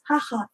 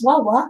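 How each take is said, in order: First: Both syllables begin with an h sound. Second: Both syllables begin with a w sound. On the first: The speaker calls it right. "It is haha" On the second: The speaker calls it wrong. "we may pronounce as wawa, not actually"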